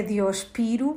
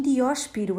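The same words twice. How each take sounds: First: Diospiro with the next-to-last syllable, PI, stressed. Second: Dióspiro with the antepenultimate Ó stressed. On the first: Language teacher rejects a myth, diospiro stressed on PI. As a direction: put the weight on the i of diospiro. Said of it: "É uma palavra esdrúxula". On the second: Language teacher corrects a myth for listeners, dióspiro stressed on Ó. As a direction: hit the open O in dióspiro. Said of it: "deve levar acento agudo na antepenúltima". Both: Shown as a demonstration.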